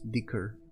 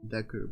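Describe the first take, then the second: First: The first vowel sounds like the 'i' in 'dick'. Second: The first vowel sounds like the 'e' in 'deck'.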